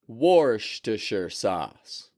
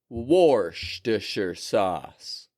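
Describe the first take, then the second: Both takes have the same delivery.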